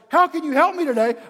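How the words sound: It is said in an angry tone.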